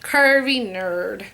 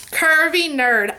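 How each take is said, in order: First: Lower, slow relish. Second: Slow, relishing the name; savoring the name. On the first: Vlogger repeating subscriber's name, lower and drawn out. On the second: Vlogger reading a subscriber's name, savoring it. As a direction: roll the name out with delight. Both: Shown as a demonstration. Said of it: "I just wanna say it one more time".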